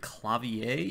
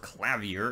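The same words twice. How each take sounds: First: The word is pronounced the French way. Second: The word is pronounced as spelled, English-style. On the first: "if you take the French interpretation of it" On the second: "if you want to go the phonetics"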